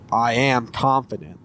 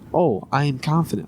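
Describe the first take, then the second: First: It is said in a confident, assured way. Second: It is said in an unsure, hesitant way.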